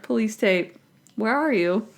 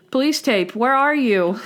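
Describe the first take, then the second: First: Imitating casual unconcern; offhand, understated retelling; nonchalant. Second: Higher-pitched imitation of a drunk man; lightly played tipsy answer; a hint of drunk cheer, pitched up. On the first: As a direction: toss it off like no big deal. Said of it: "acts like it's no big deal". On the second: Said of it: "Randy is drunk and he's like".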